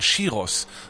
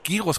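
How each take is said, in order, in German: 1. Das Wort beginnt mit dem ch-Laut. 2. Das Wort beginnt mit dem g-Laut. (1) "sondern Chiros" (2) "nicht Gyros gesagt"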